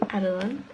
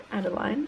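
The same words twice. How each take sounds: First: "Adeline" with a weak -lin ending; short last syllable. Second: "Adeline" rhyming its end with fine; long-i ending. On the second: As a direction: try "Adeline" as AD-uh-line. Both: Shown as a demonstration. Trying out two pronunciations of a name.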